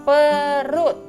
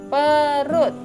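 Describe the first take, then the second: No difference in how they are said.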